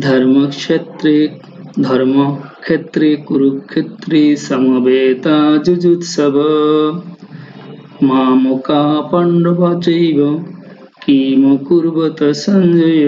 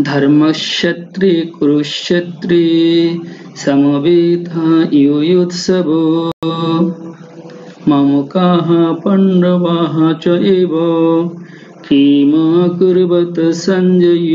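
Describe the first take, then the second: First: Slow verse chant, ক্ষেত্রে with kh and সঞ্জয় as "sonjoy"; Bengali-style recitation. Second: Slow, drawn-out chant, ক্ষেত্রে with ksh and যুযুৎসব with y; Sanskrit recitation. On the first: Teacher reading the Gita as Bengalis do, slow chant, চৈব run together. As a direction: recite slowly, running চৈব and কিম কুর্বত together. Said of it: "উচ্চারণ করি বাংলা নিয়ম অনুযায়ী".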